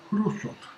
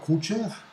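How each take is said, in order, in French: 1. Le nom se prononce avec des sons à la russe. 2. Le nom se prononce avec des sons à la française. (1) "il faut dire Khrouchtchev" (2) "il ne faut pas dire Khrouchtchev"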